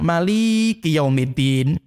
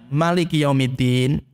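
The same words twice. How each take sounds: First: The vowel after the l is long. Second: All the vowels of maliki are short. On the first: "lamnya dipanjangkan" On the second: "dipendekkan semuanya"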